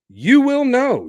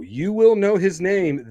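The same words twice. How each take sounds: First: High, loud burst on YOU; emphatic promise. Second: Said in the usual way. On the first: Real, not acted. Dad answering fans about son's name, emphatic.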